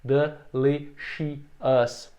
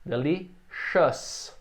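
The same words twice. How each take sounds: First: Delicious split into four syllables, very slow; wrong four syllables. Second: Delicious slow with ciou as one sound; correct three syllables. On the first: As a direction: show the mistake de-li-ci-ous. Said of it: "mais ou menos assim". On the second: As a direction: model the right syllables of delicious. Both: Shown as a demonstration.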